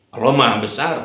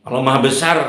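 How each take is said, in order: Both takes have the same delivery.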